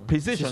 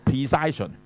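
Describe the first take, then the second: First: The stressed vowel is a short 'i'. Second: The stressed vowel sounds like 'eye'. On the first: The speaker calls it right. "而係讀precision" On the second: The speaker calls it wrong. "你就唔係讀precision"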